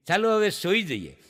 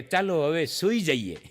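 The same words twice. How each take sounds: First: Said in the usual way. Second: Soft, slow and lower, coaxing; sleepy sweet goodnight. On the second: Retold or imitated. Fiancée at five a.m., softly and slowly saying goodnight. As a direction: murmur it like a drowsy fiancée. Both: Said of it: "ઓલી એમ કહે કે".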